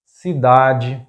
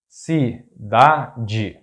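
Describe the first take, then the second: First: Cidade as one word, stressed on DA; stress on second-to-last syllable. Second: Cidade split, ci - da - de; syllable by syllable. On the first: Teacher giving an example word, cidade stressed on DA. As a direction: say cidade as see-DA-jee, joined up. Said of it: "stressed syllable is the second to last". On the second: Teacher breaking down an example word, cidade in separate syllables. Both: Shown as a demonstration.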